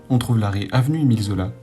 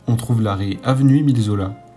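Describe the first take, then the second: First: It is spoken at a normal, quicker pace. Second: It is spoken at a slower, careful pace.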